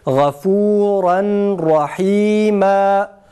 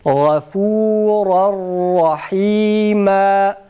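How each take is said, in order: First: The final n is clearly pronounced before r. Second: The final n merges into the following r. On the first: "Yani kelimenin sonunu nunlu okuyoruz" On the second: "tecvid kuralını icra ettiğimiz zaman nasıl okuruz?"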